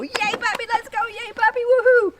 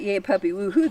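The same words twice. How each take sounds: First: Very high, rising to a loud woohoo; cheering puppy call. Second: Said in the usual way. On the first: Shown as a demonstration. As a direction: celebrate the puppy coming to you. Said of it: "you can go". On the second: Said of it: "The next time you're on leash and you do that".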